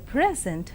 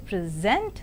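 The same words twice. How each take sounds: First: The stress is on the first syllable. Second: The stress is on the second syllable. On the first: It is used as a noun. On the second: It is used as a verb.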